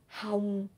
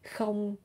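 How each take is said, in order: First: It begins with an h sound and ends in ng. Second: It begins with a k sound and ends in ng. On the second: "You can say không"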